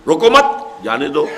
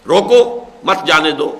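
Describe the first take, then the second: First: روکو مت run together, then جانے دو set apart; pause after مت. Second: روکو set apart, then مت جانے دو run together; pause after روکو. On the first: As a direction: hold the break until after مت, then say جانے دو. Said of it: "اس کے دوسرے معنی برعکس ہے". (مت کے بعد وقفہ) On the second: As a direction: break firmly after روکو, keeping مت with جانے دو. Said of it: "ذرا سا وقفے کا فرق". (روکو کے بعد وقفہ) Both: Shown as a demonstration.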